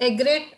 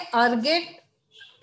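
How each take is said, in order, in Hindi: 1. यह शब्द 'eg' से शुरू होता है, उसके बाद 'ret' आता है। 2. यह शब्द 'ar' से शुरू होता है, उसके बाद 'get' आता है।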